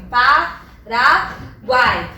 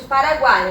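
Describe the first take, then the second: First: "Paraguai" slowly split as pa, ra, guai; syllable by syllable. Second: Said in the usual way. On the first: Shown as a demonstration. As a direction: pause after each syllable of "Paraguai". ("Paraguai" separado em sílabas, devagar: pa, ra, guai) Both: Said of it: "quando eu separo a sílaba".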